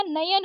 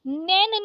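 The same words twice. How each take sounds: First: नयन as na-yan; correct two syllables. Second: नैन as one syllable, nain; wrong one syllable. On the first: Teacher correcting it, नयन in two syllables. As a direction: sound the y in नयन. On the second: Teacher showing the mistake, नैन in one syllable. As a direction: glide through नैन in one beat. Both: Shown as a demonstration. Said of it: "नैन नहीं होता नयन होता है".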